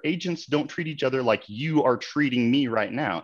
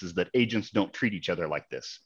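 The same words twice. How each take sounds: First: Slow, deliberate, each word weighed, stress on "Agents"; pointed slow retort. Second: Said in the usual way. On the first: Real, not acted. Answering the rude agent's words, slow and pointed. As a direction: turn his words back on him, slowly. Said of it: "And you're right, sir". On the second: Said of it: "what he kept screaming is".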